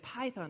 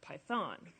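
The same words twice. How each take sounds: First: The stress is on the first syllable. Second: The stress is on the second syllable. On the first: The speaker calls it right. "we say it Python" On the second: The speaker calls it wrong. "and not Python"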